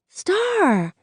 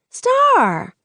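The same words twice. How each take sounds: First: High call to get her eye. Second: Higher, louder repeat of the name; urgent call. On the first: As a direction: call her name, higher. Maya calling to get attention. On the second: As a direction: call again, more insistent. Maya calling again, more urgent. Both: A narrator's reading.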